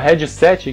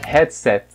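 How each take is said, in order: First: The final syllable is said strongly. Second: The final syllable is said weakly. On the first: This is the local Brazilian way of saying it. The speaker calls it wrong. "o headset que a gente fala" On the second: This is the original English way of saying it. The speaker calls it right. "a pronúncia original é headset ... no finalzinho não é forte, é fraco"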